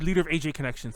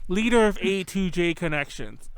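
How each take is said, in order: First: The word 'to' is dropped between A and J. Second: The word 'to' is clearly said between A and J. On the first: The speaker calls it wrong. "You never say A to J, you just say leader of A J Connections" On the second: The speaker calls it right. "I gotta enunciate"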